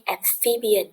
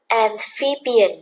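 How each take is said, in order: First: Said in the usual way. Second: Amphibian said slowly, with the PHI syllable hit hard; stress on second syllable. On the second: Shown as a demonstration. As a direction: lean on PHI in amphibian, drawn out. (nhấn mạnh âm PHI trong amphibian, đọc chậm) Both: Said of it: "được nhấn ở âm số hai".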